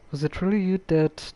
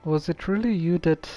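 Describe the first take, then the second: No difference in how they are said.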